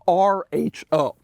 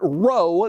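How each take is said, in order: First: Each letter of the name is said separately. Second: The name is said as a single word. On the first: The speaker calls it right. "They pronounce the letters individually" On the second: The speaker calls it wrong. "It is not R O"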